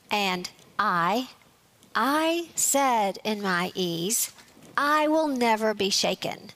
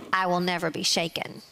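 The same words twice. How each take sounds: First: "I" drawn out slowly with a rising lift; stress on I. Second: Said in the usual way. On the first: Shown as a demonstration. Preacher to congregation, stressing "I" slowly. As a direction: lean hard on the pronoun "I", slowly. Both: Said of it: "I've emphasized the word or the pronoun I".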